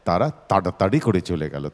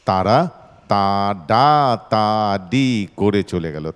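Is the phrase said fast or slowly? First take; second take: fast; slowly. First: The syllables are said quickly and run together. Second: The syllables are said slowly and separately.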